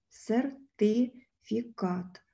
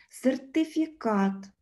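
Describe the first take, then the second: First: Сертифікат very slowly, broken at syllables. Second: Said in the usual way. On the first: Shown as a demonstration. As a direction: dictate сертифікат in separated chunks with pauses. Teacher splits word into syllables. (сертифікат дуже повільно, по складах)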